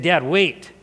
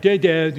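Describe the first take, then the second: First: "Dad, wait" measured, with a lift on "wait"; composed, deliberate request; earnest interruption. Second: Repeated, insistent "Dad, Dad"; mock kid's attention-seeking call; pestering child. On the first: Retold or imitated. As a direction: ask Dad seriously to hold on. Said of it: "he said it like that". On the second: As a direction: nag for Dad's attention, a bit louder. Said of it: "It wasn't like".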